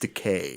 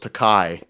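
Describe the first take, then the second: First: The last syllable rhymes with 'day'. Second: The last syllable rhymes with 'sky'. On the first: The speaker calls it right. "actually, it's decay" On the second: The speaker calls it wrong. "because he thought it was Takai"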